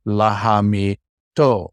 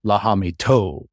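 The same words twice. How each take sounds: First: "lahamito" slowly, with a break before a stressed "to"; stress on final syllable. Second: "lahamito" run together, the final "o" held long; held final vowel. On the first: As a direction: spell out "lahamito" by syllables, landing hard on "to". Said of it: "That's where the accent comes". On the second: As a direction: stretch out the last vowel of "lahamito". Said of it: "You might even hold that vowel". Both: Shown as a demonstration.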